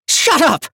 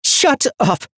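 First: Even higher, louder enraged scream; furious shout. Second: High, loud enraged command; furious shout. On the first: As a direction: scream it over him. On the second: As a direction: explode at him. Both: A narrator's reading. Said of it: "filled with incandescent violet rage".

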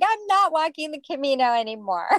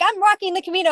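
First: Laughing it off, a bit higher. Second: Much higher and louder, eager; mock excitement. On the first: Retold or imitated. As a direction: back out of the plan with a laugh. Retold change of mind, laughing. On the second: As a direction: announce it like a thrilled plan. Retold eager plan, then reversal.

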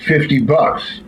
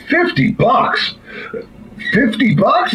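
First: Said in the usual way. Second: High, drawn-out incredulous question; mock disbelief. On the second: Buyer stunned by the farmer's price for the talking dog, incredulous. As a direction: stretch it out high in comic astonishment.

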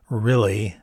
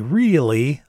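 First: "Really?" z krótkim, luźnym "i", rozluźnione usta; relaxed drawled really. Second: "Really?" z długim, szerokim "i", usta rozciągnięte w uśmiechu; ściągnij policzki i wyciągnij "ii" w "Really?"; long E really. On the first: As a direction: powiedz "Really?" leniwie, bez napinania ust. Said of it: "He would say it with a more relaxed mouth". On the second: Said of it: "pulling back my cheeks to make that long E sound". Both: Shown as a demonstration.

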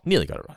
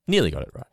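First: "Nearly got it right" higher, stressing "Nearly"; higher repeat. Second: Said in the usual way. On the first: Shown as a demonstration. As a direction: lift the repeat up high.

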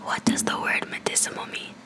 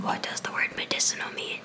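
First: Breathy whisper, a touch clearer; leaning in to whisper. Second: Whispered question, no voice; leaning in to whisper. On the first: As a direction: whisper it again, closer to the mic. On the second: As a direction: lean in and whisper it. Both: Real, not acted. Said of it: "whisper closer to the microphone".

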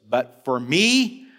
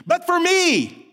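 First: Slow, weighty declaration; slow solemn recitation; declaring. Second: Me cried out high and loud, slow; soaring declaration. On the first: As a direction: proclaim it slowly. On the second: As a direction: lift me to a peak. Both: Shown as a demonstration. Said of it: "the writer declares".

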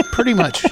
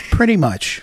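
First: Laughing. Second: Said in the usual way. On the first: Real, not acted. Laughs at the joke.

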